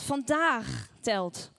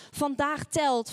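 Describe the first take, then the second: First: "vandaag" stretched out and rising, then "telt" set apart; stress on VANDAAG. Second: "Vandaag telt" slow and firm, landing on "telt"; emphatic stress. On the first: Preacher repeats it to listeners, hammering a drawn-out "vandaag". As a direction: draw out "vandaag" very slowly for weight. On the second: Preacher urges listeners that today counts, stressing "telt". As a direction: declare both words with weight, falling on "telt". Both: Real, not acted.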